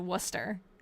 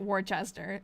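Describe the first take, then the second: First: It is said with a local Massachusetts pronunciation. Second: It is said with a pronunciation from elsewhere. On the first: This is how locals say the name. "in Massachusetts, we pronounce it Worcester" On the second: This is how people elsewhere say the name. "In some other places, I think pronounce it Worcester"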